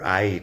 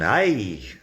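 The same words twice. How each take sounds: First: The word is said calmly, without emotion. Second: The word is said with strong emotion. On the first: It refers to a location. "talking about a location, is not as emotional" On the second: It is an exclamation. "lo dices con más uh, emoción"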